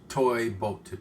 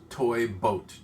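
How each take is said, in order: No difference in how they are said.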